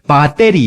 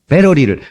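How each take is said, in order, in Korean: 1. 일본식 발음으로 말하고 있어요. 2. 한국에서 쓰는 보통 발음으로 말하고 있어요.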